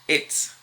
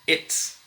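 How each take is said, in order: No difference in how they are said.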